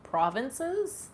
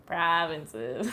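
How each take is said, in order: First: "provinces?" higher, rising like a question. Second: Canadian vowels on "Provinces."; Canadian accent. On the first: Shown as a demonstration. Streamer checking her own pronunciation, questioning rise. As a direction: test out "provinces?" with pitch climbing at the end. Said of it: "Did I say that in a very Canadian way?". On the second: Real, not acted. Streamer echoing her own word to chat, Canadian accent. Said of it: "say that in a very Canadian way".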